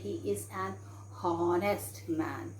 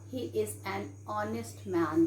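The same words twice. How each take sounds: First: The h in honest is pronounced. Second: The h in honest is silent. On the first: The speaker calls it wrong. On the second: The speaker calls it right.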